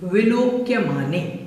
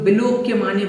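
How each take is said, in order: First: The lips stay apart on the v sound. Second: The lips close together on the v sound. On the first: The speaker calls it right. "इसमें होंठ नहीं मिलेंगे" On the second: The speaker calls it wrong. "कुछ लोग विलोक्य माने बोल देते हैं"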